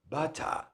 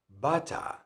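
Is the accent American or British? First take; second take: British; British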